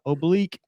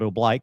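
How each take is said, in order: First: The word has its standard pronunciation. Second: The word has the Navy-style pronunciation. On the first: The speaker calls it right. "kind of oblique" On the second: The speaker calls it wrong. "as the Navy fellers will call it"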